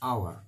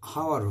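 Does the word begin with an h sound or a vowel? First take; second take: vowel; h sound. First: The word begins directly with a vowel sound. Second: The word begins with an audible h sound. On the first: The speaker calls it right. "এখানে দেখো এইচ এর উচ্চারণ হচ্ছে না" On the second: The speaker calls it wrong. "এইচ উচ্চারণ হলে হাওয়ার হতো"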